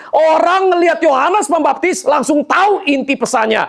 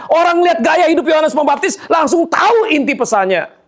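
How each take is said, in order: First: Said in the usual way. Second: Forceful repeat. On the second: Shown as a demonstration. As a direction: build it into a preaching shout. (diulang dengan suara lantang berkhotbah) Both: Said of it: "repeated with force".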